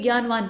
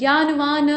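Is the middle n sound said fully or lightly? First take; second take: lightly; fully. First: The middle n is said lightly and quickly. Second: The middle n is said fully and slowly. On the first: The speaker calls it right. "जल्दी से बोल देते हैं" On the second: The speaker calls it wrong. "ज्ञानवान नहीं बोलते हैं"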